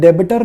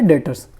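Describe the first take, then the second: First: The b sound is pronounced in the word. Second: The b sound is silent in the word. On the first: The speaker calls it wrong. "आपको reading करते हुए डेबिटर नहीं बोलना" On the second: The speaker calls it right. "बी silent है, आपने इसको read करना है डेटर्स"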